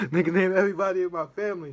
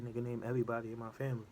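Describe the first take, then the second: First: Louder, higher, fast amazed repeat; excited. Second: Said in the usual way. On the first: Real, not acted. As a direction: shout it again in real disbelief. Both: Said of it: "Real talk".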